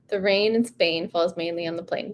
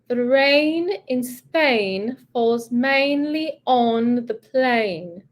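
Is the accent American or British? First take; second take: American; British. First: It is said in a flat American accent. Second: It is said in a British accent. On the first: "try that in your flat American English" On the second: "Then we're going to go British"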